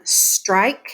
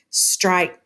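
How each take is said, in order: First: Said in the usual way. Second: "strike" with the k popped separately; exaggerated final sound. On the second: Shown as a demonstration. Teacher showing a false second syllable, strike with detached k. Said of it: "we could exaggerate it incorrectly".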